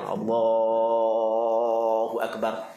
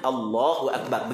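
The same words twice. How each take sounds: First: The vowels are stretched out long. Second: The vowels are kept short. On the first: The speaker calls it wrong. "tok-tok imam kita kan" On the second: The speaker calls it right. "dia hak yang sunat Allahu akbar, begitu je"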